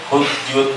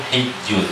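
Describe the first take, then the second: First: The first vowel is a u sound. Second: The first vowel is an i sound. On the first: "boleh dibaca hujjun" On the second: "boleh dibaca hijjun"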